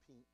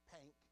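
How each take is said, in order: First: The vowel is a standard short 'i' sound. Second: The vowel is a Southern-style 'ank' sound. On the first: The speaker calls it right. "not pink" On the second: The speaker calls it wrong. "Down south. Pank"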